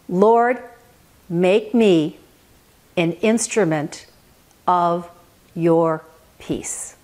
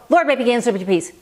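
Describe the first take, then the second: First: It is said very slowly. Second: It is said fast.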